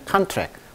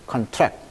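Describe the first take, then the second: First: The stress is on the first syllable. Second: The stress is on the second syllable. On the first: It is the noun meaning an agreement. "강세가 이름절에 있습니다. 그때는 contract" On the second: It is the verb meaning to shrink. "동사일 때는 contract"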